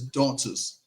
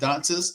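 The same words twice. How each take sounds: First: The name is said in a deep voice. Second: The name is said in a normal voice. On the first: The speaker calls it right. "you had to do the deep voice on that one" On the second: The speaker calls it wrong. "It's not"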